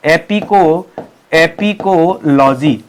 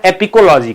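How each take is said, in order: First: "apicology" drawn out syllable by syllable; slow dictation. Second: Said in the usual way. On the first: Shown as a demonstration. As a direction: stretch each part of "apicology" for note-takers. Teacher dictates the new term.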